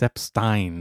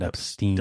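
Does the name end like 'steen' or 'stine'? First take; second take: stine; steen. First: The last syllable rhymes with 'fine'. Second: The last syllable rhymes with 'seen'. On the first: The speaker calls it right. "It's E-I, so it's Stein" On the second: The speaker calls it wrong.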